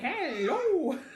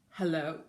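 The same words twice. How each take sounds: First: It is said in a playful, goofy voice. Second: It is said in a grave, solemn voice. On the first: "Let's say hello as silly as we can" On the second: "Let's say hello as seriously as we can"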